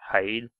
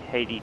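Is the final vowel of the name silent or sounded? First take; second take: silent; sounded. First: The final vowel of the name is silent. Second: The final vowel of the name is pronounced. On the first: The speaker calls it right. "the E at the end might be completely uh, silent" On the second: The speaker calls it wrong. "what I was calling it"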